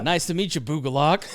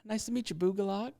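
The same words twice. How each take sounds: First: It is said in a deep, manly voice. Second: It is said in a feminine, girlish voice.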